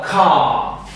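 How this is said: It is said with a British accent.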